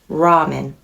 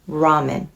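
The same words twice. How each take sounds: First: It is said with an English r sound. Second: It is said with an English r sound.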